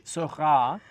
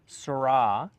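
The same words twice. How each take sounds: First: "sera" with a throaty Parisian R; "sera" with a French R at the back of the throat. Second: "sra" with an English R, slowly; wrong R. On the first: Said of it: "don't wanna say sera". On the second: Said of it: "you don't wanna say sra". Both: Shown as a demonstration.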